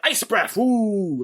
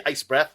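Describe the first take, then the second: First: "Ice breath" called out a bit higher like a hero's move, then woo; mock Superman call-out. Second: Said in the usual way. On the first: Mocking Superman naming his move, lightly called out "Ice breath". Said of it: "he says". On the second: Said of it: "I don't see him say".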